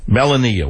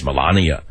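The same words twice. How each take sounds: First: "Melania" said MEL-uh-nee-uh, Bronx style, first syllable stressed; Bronx pronunciation. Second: "Melania" said meh-LAH-nee-ah, long open second syllable; careful pronunciation. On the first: Bronx host gives up and says "Melania" as MEL-uh-nee-uh. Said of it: "I'm not from Hungary". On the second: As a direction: sound out "Melania" with the stress on LAH. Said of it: "Let me say Melania". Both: Shown as a demonstration.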